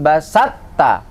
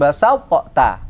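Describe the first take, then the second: First: The two t-sounds merge into one held sound. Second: The two t-sounds are pronounced separately. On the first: The speaker calls it right. "dibaca la im basatta" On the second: The speaker calls it wrong. "bukan basatta"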